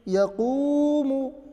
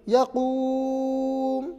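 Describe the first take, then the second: First: The word ends with a short u vowel. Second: The word ends on a bare m sound. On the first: The reading continues without stopping. "जल्दी पढ़े मु" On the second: The reader stops at this word. "तो रुकेंगे तो यकूम मीम को साकिन कर दिया"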